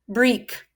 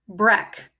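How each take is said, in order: First: The vowel is a long E sound. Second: The vowel is a short E sound. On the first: "I'll try the long E sound first" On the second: "I'll try the short sound of E next"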